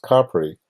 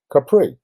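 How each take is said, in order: First: Capri stressed on the first syllable, CA-pri; Italian pronunciation. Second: Capri stressed on the second syllable, ca-PREE; wrong pronunciation. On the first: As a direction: say Capri the Italian way, CAH-pree. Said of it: "In Italian, that's pronounced". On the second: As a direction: say Capri the common mistaken way, ca-PREE. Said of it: "which is incorrect". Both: Shown as a demonstration.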